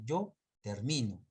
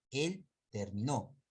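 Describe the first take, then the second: First: Yo termino said slowly, stress on mi; slow Yo termino, lean on mi; stress demo. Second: Él terminó said slowly, stress on final nó; stress demo. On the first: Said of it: "Este está en primera persona". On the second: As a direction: slowly set terminó against termino, hitting nó. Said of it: "Este es un verbo en tercera persona". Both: Shown as a demonstration.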